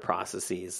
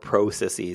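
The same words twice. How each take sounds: First: The word has an American pronunciation. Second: The word has a Canadian pronunciation. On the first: "So I say like most of the American slang or pronunciations" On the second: "or processes, because I'm Canadian"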